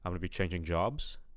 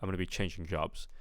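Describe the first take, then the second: First: The voice rises at the end. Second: The voice falls at the end. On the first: "If you want to talk in an uptalk manner" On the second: "I'd expect here"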